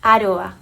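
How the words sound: It is said with a Spanish pronunciation. This is how the name sounds in its home region. "This is the way it sounds originally"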